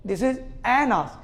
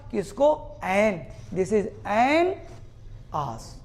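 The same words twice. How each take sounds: First: An आस said slowly as separate words; slow demo. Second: An stretched very slowly before आस; slow demo. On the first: Teacher demonstrating separated an and आस to class. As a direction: stretch out This is an आस. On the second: Teacher slowing down an before आस for students. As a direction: draw out each sound slowly. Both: Shown as a demonstration. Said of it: "sound क्या लगाया तुमने".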